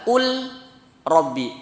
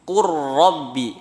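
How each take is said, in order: First: The L is pronounced clearly before the R. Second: The L merges into a doubled R sound. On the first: The speaker calls it wrong. "Lamnya tidak dibaca qul rabbi" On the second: The speaker calls it right. "Contohnya qurrabbi"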